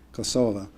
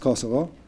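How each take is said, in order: First: The final vowel is an 'ah' sound. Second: The final vowel is an 'oh' sound. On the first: This is the Albanian pronunciation of the name. "the Albanian pronunciation. It ends with an A" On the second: This is the traditional name used on the news. "which ends with an O"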